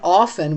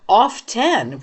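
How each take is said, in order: First: The T sound is left silent. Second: The T sound is clearly pronounced.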